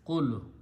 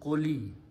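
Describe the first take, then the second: First: The word ends on a bare l sound. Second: The word ends with an added short i. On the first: The word is said on its own. "the word has a sukoon at the end" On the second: The word is joined to the next word. "we modify this letter with a kasra"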